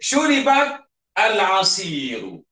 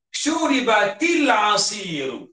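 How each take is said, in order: First: The words are said separately without a linking vowel. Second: The words run together smoothly with a linking vowel.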